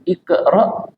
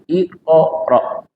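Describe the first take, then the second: First: The q bounce is thin, with an e-like sound. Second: The q bounce is thick, with an o-like sound. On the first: The speaker calls it wrong. "bukan iqra" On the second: The speaker calls it right. "mantulnya juga ikut tebal, bukan tipis"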